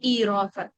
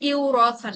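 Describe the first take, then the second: First: The first syllable has a long i sound. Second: The first syllable has a w sound. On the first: The speaker calls it right. "Smooth করে বলবে হচ্ছে ই রসান" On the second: The speaker calls it wrong. "Normally বলতে গেলে বলতে হবে ইউরসান"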